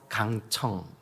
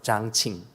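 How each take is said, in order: First: The name is said with the Korean reading. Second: The name is said with the Chinese reading. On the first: "우리 한국식 발음으로" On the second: "중국 발음으로는"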